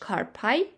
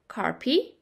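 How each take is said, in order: First: It is pronounced in an English style. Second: It is pronounced in a Latin style. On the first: "in English carpi" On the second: "Listen to how I'm pronouncing the Latin words"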